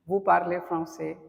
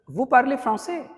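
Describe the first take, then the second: First: The voice falls at the end. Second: The voice rises at the end. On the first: It states that the listener speaks French. "first I am going to read this sentence as a simple statement" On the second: It asks whether the listener speaks French. "we call it intonation. ... By raising your voice"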